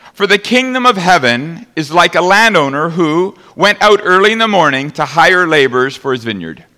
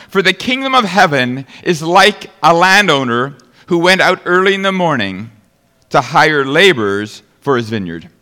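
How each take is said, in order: No difference in how they are said.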